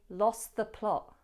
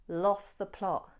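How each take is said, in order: The two takes are said the same way.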